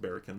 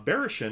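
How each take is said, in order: First: The middle consonant is a hard K sound. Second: The middle consonant is soft, not a K. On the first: The speaker calls it right. "should be pronounced Barrakin" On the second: The speaker calls it wrong. "I think I've been pronouncing that all wrong all along"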